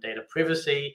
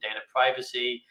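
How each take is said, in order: First: Privacy is said with a British accent. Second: Privacy is said with an American accent.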